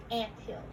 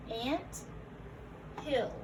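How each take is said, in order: First: Said in the usual way. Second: "Ant", long gap, then "hill"; split compound. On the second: Shown as a demonstration. Teacher repeating the parts for learners, "Ant", pause, "hill". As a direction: say "Ant" and "hill" as separate words.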